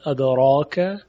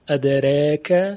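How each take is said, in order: First: The long vowel is a fully open a. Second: The long vowel is halfway between a and e. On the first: "فتح میشود ادراک" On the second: "تقلیل ادریک"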